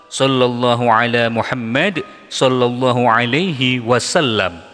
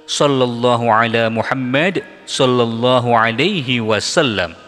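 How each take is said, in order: Both takes have the same delivery.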